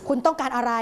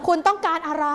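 First: Said in the usual way. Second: Higher, snappy and rude; rude demand. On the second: Shown as a demonstration. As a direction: snap at the caller. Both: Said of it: "ร้ายกาจมากเลย".

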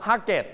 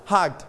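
First: "hugget" said as two syllables, HUG-get; wrong extra syllable. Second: "hugged" in one syllable, barely releasing the d; softened final d. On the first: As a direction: say "hugget" with a full -et ending. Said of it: "we don't pronounce". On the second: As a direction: keep the final d of "hugged" very light. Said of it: "มีเสียง the เบาๆ". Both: Shown as a demonstration.

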